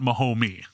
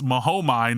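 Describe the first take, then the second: First: The word ends with an 'ee' sound. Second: The word ends with an 'eye' sound. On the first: The speaker calls it wrong. "not Mahomie" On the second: The speaker calls it right. "that's Mahomai"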